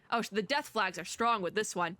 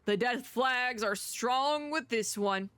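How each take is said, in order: First: Said in the usual way. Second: Slow, drawn-out ominous line. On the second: Real, not acted. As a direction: drag it out ominously. Repeats ominous remark.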